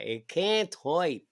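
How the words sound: It is said in his mom's New Jersey accent.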